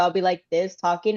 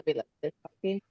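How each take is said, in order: First: The voice is at its normal level. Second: The voice drops low and quiet.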